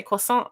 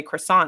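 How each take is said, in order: First: "croissant" said the French way; "croissant" pronounced correctly, as in French; French pronunciation. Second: "croissant" said the American way; "croissant" as an American tourist would say it; American pronunciation. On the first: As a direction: say "croissant" with a careful attempt at French sounds. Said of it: "put an effort into saying her country's, um, food correctly". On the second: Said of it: "most Americans come in here and say". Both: Retold or imitated.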